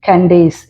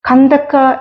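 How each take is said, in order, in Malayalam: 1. ഈ പേര് s ശബ്ദത്തിലാണ് അവസാനിക്കുന്നത്. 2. ഈ പേര് k ശബ്ദത്തിലാണ് അവസാനിക്കുന്നത്.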